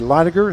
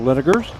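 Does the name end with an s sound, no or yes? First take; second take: no; yes. First: The name ends without an s sound. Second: The name ends with an s sound. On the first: The speaker calls it right. "supposed to be Linegar" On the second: The speaker calls it wrong. "instead of Linegers"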